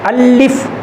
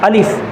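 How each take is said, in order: First: The L sound is doubled and held. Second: Short vowels and a single L sound. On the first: The speaker calls it wrong. "लाम के ऊपर शद तो नहीं दे रहे" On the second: The speaker calls it right. "बल्कि ये अलिफ अलिफ अलिफ इस तरह है"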